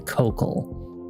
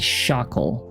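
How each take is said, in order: First: The word begins with a hard K sound. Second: The word begins with a soft SH sound. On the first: "It could be cockle" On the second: "It could be shockle"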